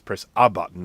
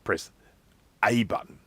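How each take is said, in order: First: The 'a' is a short, reduced 'uh' sound. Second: The 'a' is said as the letter 'ay'. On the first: Press any button. The speaker calls it right. "It's saying, "Press a button."" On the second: Press the button labeled A. The speaker calls it wrong. "it's not saying, "Hey, press A on the keyboard.""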